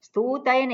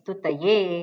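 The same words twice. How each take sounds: First: The 'u' vowel is drawn out long. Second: The 'u' vowel is kept short. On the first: The speaker calls it wrong. "નહીં" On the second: The speaker calls it right. "સ્તુલી દીર્ઘ નથી"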